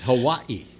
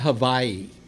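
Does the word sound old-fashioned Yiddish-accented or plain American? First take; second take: plain American; Yiddish-accented. First: The word has a plain American pronunciation. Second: The word has an old Yiddish-style pronunciation. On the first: The speaker calls it right. "It's Hawaii" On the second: The speaker calls it wrong.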